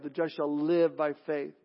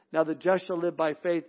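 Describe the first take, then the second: First: "live" weighted as the key word; stress on live. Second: Said in the usual way. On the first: Shown as a demonstration. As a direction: lean on "live" and let the rest fall away. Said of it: "is on the word live". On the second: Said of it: "the emphasis is, is on the word live".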